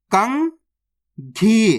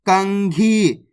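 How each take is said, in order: First: कंघी very slowly, kan rising, long pause, then ghee; split into syllables. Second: Said in the usual way. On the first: Shown as a demonstration. Teacher reading the matra directly for learners, split into syllables. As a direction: sound out कंघी in two separate parts. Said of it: "direct मात्रा का उच्चारण करके पढ़ेंगे". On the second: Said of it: "तो मिलके बन जाएगा".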